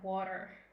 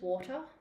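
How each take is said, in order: First: It is said in an American accent. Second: It is said in a British accent. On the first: "Americans is like" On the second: "British is"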